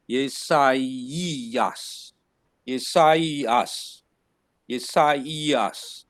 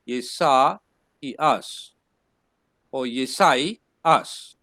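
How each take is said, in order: First: Yesaias said yeh-sah-ee-as, with the i as its own syllable; correct pronunciation. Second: Yesaias said yeh-sais, with ai as one diphthong, the second take slowed down; wrong pronunciation. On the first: Teacher demonstrating the correct Greek name to students. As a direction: give the i its own sound in Yesaias. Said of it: "but the pronunciation would be". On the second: Teacher showing the mistaken reading to the class. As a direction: blend the ai in Yesaias into one sound. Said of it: "Otherwise, you would say". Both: Shown as a demonstration.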